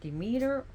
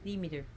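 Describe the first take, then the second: First: The name is said with an American pronunciation. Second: The name is said with a Greek pronunciation. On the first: This is how the name is said in the United States. "We pronounce her Demeter" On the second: This is how the name is said in Greece. "she is Demeter in Greece"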